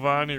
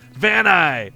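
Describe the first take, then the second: First: The name is said with softer sounds. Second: The name is said with harder sounds. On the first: The speaker calls it right. "it sounds so much cooler than Vani" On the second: The speaker calls it wrong. "It's got harder sounds"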